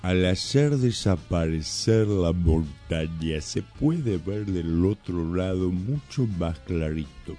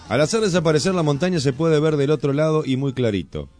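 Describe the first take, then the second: First: It is read slowly. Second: It is read at normal speed.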